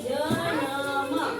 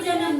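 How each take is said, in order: First: A full vowel separates the n and m sounds. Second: The n joins straight onto the m sound. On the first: "અત્યારે શું કહેવાય છે કે જનમ" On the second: "આને જન્મ બોલાશે"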